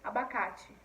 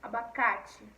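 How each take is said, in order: Both takes have the same delivery.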